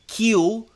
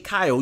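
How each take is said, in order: First: The vowel sounds like 'ee'. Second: The vowel sounds like 'eye'. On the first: The speaker calls it wrong. "You don't say" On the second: The speaker calls it right. "you say Kyle"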